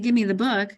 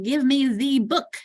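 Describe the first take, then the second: First: The word 'the' is unstressed with a schwa. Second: The word 'the' is stressed with a full vowel. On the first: "notice that becomes an unstressed" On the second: "If it not, I'd say the"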